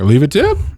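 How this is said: It is said as a rising question.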